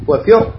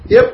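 First: وفر recited with a full, heavy ra. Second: فر recited with a light, thin ra. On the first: Teacher demonstrating فر with heavy ra. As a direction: say وفر with a thick, emphatic ra. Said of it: "بالتفخيم". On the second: Teacher demonstrating فر with thin ra. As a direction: say فر with the ra softened by the kasra. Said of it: "بالترقيق". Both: Shown as a demonstration.

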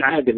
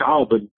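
First: "عادل" with a light, thin d; correct light dal. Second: "عاضل" with a heavy, emphatic d; wrong heavy dad. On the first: Teacher gives a colleague's name as example, light dal. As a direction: say "عادل" with plain dal, no heaviness. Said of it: "أنا بقول". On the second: Teacher shows how not to say the name, heavy dad. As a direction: say "عاضل", thickening the middle consonant. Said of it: "ما بقولش". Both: Shown as a demonstration.

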